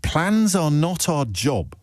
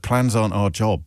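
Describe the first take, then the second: First: "Plans are not our job", drawn out slowly and pitched up; slow, higher restatement, leaning on every word of "Plans are not our job"; emphatic incredulous repeat. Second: Said in the usual way. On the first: Retold or imitated.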